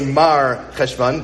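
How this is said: There is a pause between Mar and Cheshvan.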